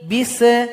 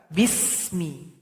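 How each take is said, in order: First: The s sound ends in a bounced release. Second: The s sound flows smoothly with breath. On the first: The speaker calls it wrong. "enggak boleh dibaca bisa" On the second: The speaker calls it right. "alirkan bunyi nafas kita"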